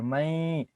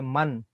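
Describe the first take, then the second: First: The n becomes a nasal sound, not a clear n. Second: The n is pronounced as a clear n sound. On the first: The speaker calls it right. "I skip the nun sakin sound and I make a gunna right here" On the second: The speaker calls it wrong. "I don't say man"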